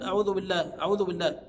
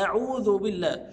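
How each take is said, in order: First: "أعوذ" begun with the hamza slurred over; dropped glottal stop. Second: "أعوذ" opened on a firm glottal stop; clear glottal stop. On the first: Retold or imitated. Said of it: "بيتجاهل همزة ال-، ال-، القطع". (نطق "أعوذ" مع تجاهل همزة القطع) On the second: Shown as a demonstration. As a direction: hit the initial hamza of "أعوذ" cleanly. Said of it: "لا، آ،". (نطق "أعوذ" بهمزة قطع واضحة)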